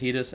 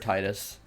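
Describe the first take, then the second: First: The first part does not sound like tide. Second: The first part sounds like the word tide. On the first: "I've always said Titus" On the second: "Tide is in Titus"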